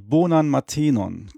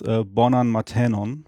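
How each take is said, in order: First: The e and o vowels are pronounced closed. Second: The e and o vowels are pronounced open. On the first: The speaker calls it wrong. "Germans often say bonan matenon. I recommend to avoid that" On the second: The speaker calls it right. "I usually teach that the vowels are to be pronounced open"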